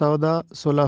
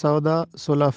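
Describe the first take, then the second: First: The second word sounds like 'sulaf'. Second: The same.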